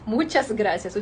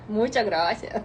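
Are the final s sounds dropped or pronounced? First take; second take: pronounced; dropped. First: The final s sounds are clearly pronounced. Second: The final s sounds are dropped. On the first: "Скажи це чітко, а не по-чилійськи" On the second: "Люди, які не кажуть останнє «с», як вони кажуть?"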